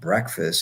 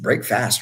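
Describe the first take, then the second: First: It is said as one reduced, blended word. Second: It is said as two separate full words. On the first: It is just the name of the meal. "It's not breakfast" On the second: It means breaking the night's fast. "break fast, really"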